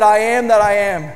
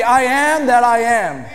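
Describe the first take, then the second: First: Said in the usual way. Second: Each word of I am that I am weighted and slowed; solemn proclamation of the name; slow solemn declaration. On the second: Retold or imitated. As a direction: let I am that I am ring out, slow and grand. God's answer, declared again.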